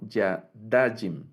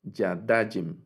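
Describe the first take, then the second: First: The stress is on the second-to-last syllable. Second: The same.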